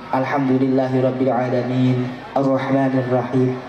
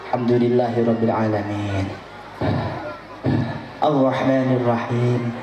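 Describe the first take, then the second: First: The two verses run on without a pause. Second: A long pause separates the two verses. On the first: The verses are recited continuously. The speaker calls it right. "Jadi harus berurutan dan terus menerus" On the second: The verses are broken apart. The speaker calls it wrong. "Maka sampai satu menit berhenti, berarti ada jeda"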